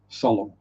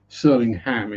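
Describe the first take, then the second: First: It is said in a Norfolk accent. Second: It is said in an American accent. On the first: "the Norfolk pronunciation of it is Solemn" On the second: "Surlingham if you're American"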